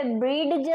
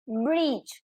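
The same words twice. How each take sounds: First: બ્રીડ જ with a separate D before the J; D wrongly pronounced. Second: બ્રિજ said as brij, with no D; silent D. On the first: Teacher shows what we don't say, D sounded in બ્રીડ જ. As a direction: split it as breed-j, sounding the D in બ્રીડ જ. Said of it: "નહીં કહેતા આપણે". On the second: Teacher models the word for students, silent D in બ્રિજ. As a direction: go straight from the vowel to J in બ્રિજ. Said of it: "અહીં ડી નો pronunciation નથી". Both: Shown as a demonstration.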